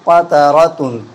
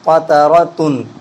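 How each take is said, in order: Both takes have the same delivery.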